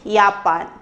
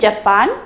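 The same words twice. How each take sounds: First: The word is said with German pronunciation. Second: The word is said with English pronunciation. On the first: "in German we say Japan" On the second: "in English we say Japan"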